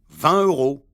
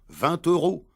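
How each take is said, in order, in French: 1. Aucun son de liaison ne relie les deux mots. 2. Un son de liaison « t » relie les deux mots. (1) "Ils disent" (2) "On doit dire"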